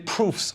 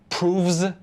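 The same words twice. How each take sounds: First: The word ends with an f sound. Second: The word ends with a v sound. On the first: The speaker calls it right. "we say" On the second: The speaker calls it wrong. "We don't say"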